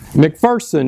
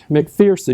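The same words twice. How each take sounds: First: The middle syllable does not sound like 'fear'. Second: The middle syllable sounds like 'fear'. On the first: The speaker calls it right. "there is no fear in McPherson" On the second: The speaker calls it wrong. "not McPherson"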